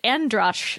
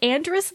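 First: The name ends with a sh sound. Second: The name ends with an s sound. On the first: This is how it was said on the show. "they pronounced it Androsh on the show" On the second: This is how the hosts have been saying it. "Is it Andrus, though? Have we been mispronouncing her last name?"

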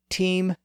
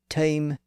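First: The vowel is a high front ee sound. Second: The vowel sits between ee and eye. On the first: This is the older medieval pronunciation. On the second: This is the early modern pronunciation.

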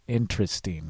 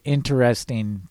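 First: The word is said with three syllables. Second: The word is said with four syllables. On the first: "and you pronounce it interesting" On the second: "your mom pronounces it interesting"

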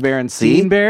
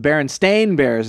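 First: The name ends with a 'steen' sound. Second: The name ends with a 'stain' sound. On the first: This is how the name was remembered. "Steen is Bears. What I thought it was" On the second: This is the real name found on the books. "I heard it was the Berenstain Bears instead of"

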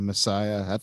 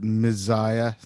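First: The middle consonant is a plain s sound. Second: The middle consonant is a hard z sound. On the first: The speaker calls it right. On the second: The speaker calls it wrong.

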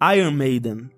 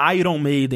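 First: It has an English accent with a barely heard R. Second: It has a Brazilian accent with a clear R.

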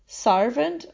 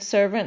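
First: The first syllable has an 'ar' vowel. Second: The first syllable has the modern 'er' vowel. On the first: This is how a commoner of that time spoke. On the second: This is today's usual pronunciation.

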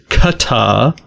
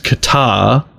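First: It is said with a British English pronunciation. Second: It is said with an American English pronunciation. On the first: "the UK English pronunciation is Qatar" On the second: "The US pronunciation is Qatar"

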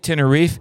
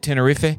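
First: The name is said with an American pronunciation. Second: The name is said with a Spanish pronunciation. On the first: This is the familiar English form that purists object to. "you say Tenerife and the purists will get mad at you" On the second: This is how native Spanish speakers say it. "I'll say Tenerife and the Americans will get mad at me"

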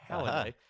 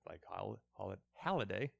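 First: The first vowel sounds like the 'a' in 'pal'. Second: The first vowel sounds like the 'o' in 'doll'. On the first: The speaker calls it right. "the A is meant to be pronounced as it is" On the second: The speaker calls it wrong. "I keep doing this wrong"

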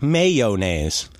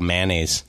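First: A clear y sound follows the first syllable. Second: No y sound follows the first syllable. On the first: The speaker calls it wrong. "I see how fancy you are pronouncing the Y" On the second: The speaker calls it right. "There's no Y or O in the word"

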